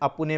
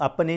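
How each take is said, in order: First: ਅਪੁਨੇ with a light u sound between p and n; ਅਪੁਨੇ pronounced a-pu-ne, not a-pa-ne; correct scriptural form. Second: ਅਪਨੇ said as a-pa-ne with no u sound; the everyday ਅਪਨੇ that is not to be read; ਅਪਨੇ as a-pa-ne, the form to avoid; wrong colloquial form. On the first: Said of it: "ਬੜਾ ਸਟਲ ਸੂਖਸ਼ਮ ਜਿਹਾ ਉਚਾਰਨ ਹੈ". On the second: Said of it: "ਅਪਨੇ ਨਹੀਂ ਪੜਨਾ". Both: Shown as a demonstration.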